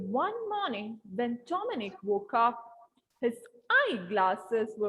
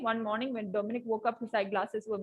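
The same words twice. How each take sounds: First: There is a pause after 'woke up'. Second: There is no pause after 'woke up'. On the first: The speaker calls it right. "when there is a comma, when there is a full stop and all, pause there" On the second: The speaker calls it wrong. "Instead of reading"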